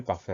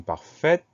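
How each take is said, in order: First: Said in the usual way. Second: "parfaite" with the final T clearly sounded; "parfaite" ending on a crisp, audible T. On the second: Shown as a demonstration. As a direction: release the T at the end of "parfaite". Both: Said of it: "on va entendre le T muet".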